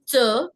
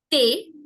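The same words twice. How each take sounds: First: Thé wrongly said as "tuh"; missing-accent sound. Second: Thé said as "tay"; a single clear closed "ay" on thé; careful French model word, thé as /te/; accented é sound. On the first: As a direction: schwa in place of "ay" on thé. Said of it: "how the sounds would be if I did not have the accents". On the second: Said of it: "which gives me the sound A". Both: Shown as a demonstration.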